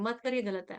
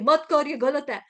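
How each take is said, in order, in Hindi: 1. वाक्य और धीरे से बोला गया है। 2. वाक्य ज़ोर से बोला गया है। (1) "दूसरी बार आवाज थोड़ी कम होती है" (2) "पहली बार जब परमात्मा की आवाज होती है वो ऊंची होती है"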